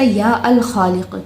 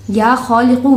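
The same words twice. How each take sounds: First: या अल खालिक said with the article al before खालिक; the incorrect version, या अल खालिक with al-; wrong form with al. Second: या खालिकु said without al, ending in -u; the correct version, खालिकु with final u and no article; correct form. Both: Shown as a demonstration. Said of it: "या ऐसे नहीं हो सकता".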